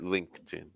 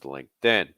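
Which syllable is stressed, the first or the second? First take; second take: first; second. First: The stress is on the first syllable. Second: The stress is on the second syllable. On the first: The speaker calls it wrong. "you're stressing linked" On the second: The speaker calls it right. "Stress in this case is going to fall in"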